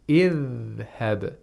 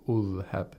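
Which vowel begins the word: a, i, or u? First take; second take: i; u. First: The word begins with an i vowel. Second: The word begins with a u vowel. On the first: The speaker calls it right. "We say idhhab" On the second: The speaker calls it wrong. "We don't say adhhab or ulhab"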